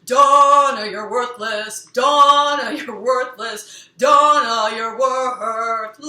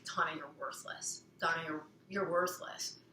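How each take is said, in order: First: Loud, slow, theatrical sung taunt; sung, belt it like an over-the-top opera line; dramatic singing. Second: A hint of a cold, quieter inner critic; critical inner voice. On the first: Shown as a demonstration. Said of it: "and now it's like this". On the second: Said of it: "so you hear that voice".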